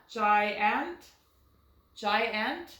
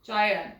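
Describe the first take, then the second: First: Giant sounded out with a full short A in the second syllable; trial pronunciation. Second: Giant with a reduced uh in the second syllable; schwa pronunciation. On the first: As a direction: say "giant" as JY-ANT, both vowels clear. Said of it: "Does that sound like a word". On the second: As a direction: say "Giant" as JY-unt. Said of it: "let's try our schwa". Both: Shown as a demonstration.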